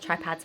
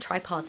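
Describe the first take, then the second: First: The second syllable sounds like 'pads'. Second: The second syllable sounds like 'pods'. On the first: The speaker calls it wrong. "not tripads" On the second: The speaker calls it right. "tripods, not tripads"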